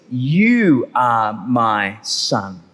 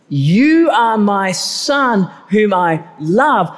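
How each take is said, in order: First: Much lower, very slow, solemn "You are my Son"; voice of God. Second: Said in the usual way. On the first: Acted. God the Father naming his Son at the baptism, deep and solemn. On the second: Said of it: "He says, "You are my Son".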